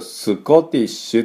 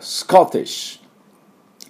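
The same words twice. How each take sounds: First: A vowel is inserted after the s sound. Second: The s and k are said together, no vowel. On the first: The speaker calls it wrong. "最初のスクスクスクで、これをスコティッシュって言っちゃいますね" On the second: The speaker calls it right. "スコティッシュっていうと綺麗な音になりますね"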